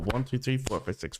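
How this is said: The stress falls on one and four.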